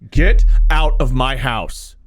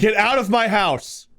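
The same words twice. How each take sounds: First: It is said with strong passion. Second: It is said in a plain, flat way.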